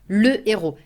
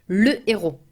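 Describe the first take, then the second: The two takes are said the same way.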